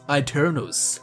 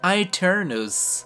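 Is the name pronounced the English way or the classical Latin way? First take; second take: English; Latin. First: It is pronounced with plain English sounds. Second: It is pronounced with classical Latin sounds.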